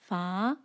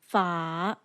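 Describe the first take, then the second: First: The pitch rises upward. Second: The pitch falls and then rises. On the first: "rises upwards like this" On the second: "falls and then rises"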